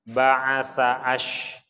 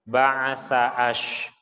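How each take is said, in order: The two takes are said the same way.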